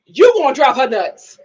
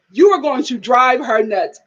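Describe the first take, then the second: First: Said in the usual way. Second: "You are going to" said in full, word by word; fully enunciated. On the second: Shown as a demonstration. Warning that mama will drive her nuts, "are going to" carefully enunciated. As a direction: spell out "are going to" instead of "gonna". Same words repeated in full form.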